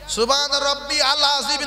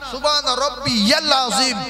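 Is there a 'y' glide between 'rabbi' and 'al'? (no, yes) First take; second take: no; yes. First: Rabbi and al are said as separate words. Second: Rabbi links to al with a y glide. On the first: The speaker calls it wrong. "না" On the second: The speaker calls it right. "ইয়াল বলবেন"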